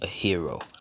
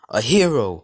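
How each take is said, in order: First: It is said at normal volume. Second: It is said loudly.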